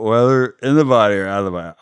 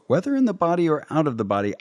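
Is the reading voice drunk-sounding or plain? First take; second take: drunk; plain. First: The words are read in a slurred, drunk-sounding voice. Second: The words are read in a plain, normal voice.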